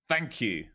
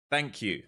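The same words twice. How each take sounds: The two takes are said the same way.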